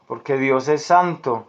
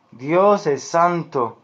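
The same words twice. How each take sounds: First: Said in the usual way. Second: DIOS drawn out and stressed, then "es santo"; slow, deliberate weight on "Dios"; emphatic restatement. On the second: Real, not acted. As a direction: repeat it slowly, leaning on "Dios". Preacher repeats the statement for emphasis.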